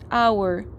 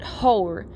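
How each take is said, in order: First: The word begins with no H sound. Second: The word begins with an audible H sound. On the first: The speaker calls it right. "it's a silent H" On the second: The speaker calls it wrong. "It's not hour"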